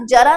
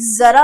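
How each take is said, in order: First: जरा with a hard j, jara; plain j. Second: जरा with a loud buzzing z, zara; buzzed z. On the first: Teacher naming the undotted word, जरा with plain j. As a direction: begin जरा with j as in jam. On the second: Teacher showing what the dot does, जरा with buzzed z. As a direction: hit the z opening जरा. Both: Shown as a demonstration. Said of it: "उच्चारण अलग तरीके से होगा".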